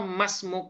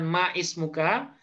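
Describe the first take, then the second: First: The words run together without the glottal stop. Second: The words are separated by a glottal stop. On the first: The speaker calls it right. "Beliau nyebutnya masmuk" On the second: The speaker calls it wrong. "bukan ma ismuka"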